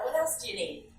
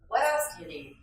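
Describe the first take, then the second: First: Smiling, friendly offer of more help; with a smile. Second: Said in the usual way. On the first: Shown as a demonstration. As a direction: say it smiling, welcoming. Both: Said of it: "You can say that with a smile".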